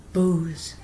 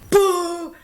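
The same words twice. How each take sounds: First: Said in the usual way. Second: Boo the stage like the crowd did; mock boo. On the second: Shown as a demonstration.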